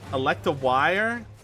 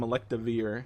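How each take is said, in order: First: The last syllable sounds like 'wire'. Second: The last syllable does not sound like 'wire'. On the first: The speaker calls it wrong. "Pronounced like wire" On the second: The speaker calls it right. "I'm gonna keep calling him Electivire"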